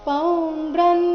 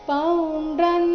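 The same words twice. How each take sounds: The two takes are said the same way.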